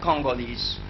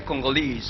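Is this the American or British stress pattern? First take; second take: American; British. First: It is said with the American stress pattern. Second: It is said with the British stress pattern. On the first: "American English, for example, we say Congolese" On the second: "but in British English they say Congolese"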